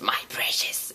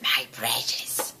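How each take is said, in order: First: Breathy whispered My precious; whispered Gollum line. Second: Slow, soft, drawn-out Gollum croak; Gollum catchphrase. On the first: Trailer's last line, Gollum whispering to the audience. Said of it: "the very last line of the trailer is". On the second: Gollum lingering over his treasure, slow and soft. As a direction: stretch it out like Gollum hoarding the ring. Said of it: "His stupid little catchphrase". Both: Retold or imitated.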